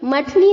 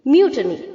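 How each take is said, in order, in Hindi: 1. पहला अक्षर साधारण 'muh' ध्वनि है। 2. पहला अक्षर 'myoo' ध्वनि है। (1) "गलत है बच्चों, मठनी नहीं होता है" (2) "एम के आगे जो यू है उसे हमें वाई डबल ओ की तरह प्रोनाउंस करना है"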